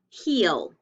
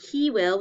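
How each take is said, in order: First: The words are contracted into one syllable. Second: Both words are said in full. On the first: "we say he'll" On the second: "Instead of saying he will"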